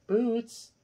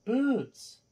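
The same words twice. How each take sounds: First: Calling the cat sharply, high; sharp high call across the room; loud sharp voice. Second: Sharp high call to the cat; loud sharp voice. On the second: Calling the meowing cat again. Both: Real, not acted.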